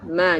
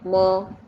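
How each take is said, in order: First: The vowel is a thin, open 'a'. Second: The vowel is a heavy, rounded 'o'. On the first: The speaker calls it right. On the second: The speaker calls it wrong.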